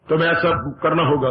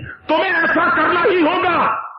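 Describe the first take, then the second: First: It is said flatly, without feeling. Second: It is said forcefully, with energy.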